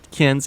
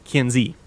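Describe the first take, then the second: First: The word ends without a final vowel sound. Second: The word ends with a final vowel sound. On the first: The speaker calls it wrong. "It is not Kins" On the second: The speaker calls it right. "with the E pronounced on the end"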